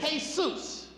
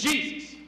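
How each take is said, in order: First: The name is said the Spanish way. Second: The name is said the English way. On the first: This is how the family says the name. "I know they pronounce it Jesus" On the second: This is how an employer reads the name. "it reads as Jesus"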